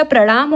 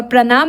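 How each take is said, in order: First: प्रणाम with retroflex ण; correct प्रणाम. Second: प्रणाम with plain dental n; wrong प्रणाम. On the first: Teacher gives the correct word, प्रणाम with retroflex n. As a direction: curl the tongue for the middle of प्रणाम. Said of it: "होता है". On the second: Teacher shows the misspelling, प्रणाम with plain n. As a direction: say प्रणाम as "pranaam" with न. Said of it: "नहीं होता". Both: Shown as a demonstration.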